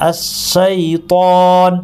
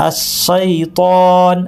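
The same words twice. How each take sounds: The two takes are said the same way.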